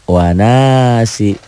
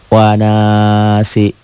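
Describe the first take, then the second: No difference in how they are said.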